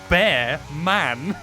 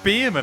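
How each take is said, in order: First: The first part sounds like the word bear. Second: The first part sounds like the word beer. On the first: The speaker calls it right. "It's literally spelt bear man" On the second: The speaker calls it wrong. "Where did you get Beerman out of it?"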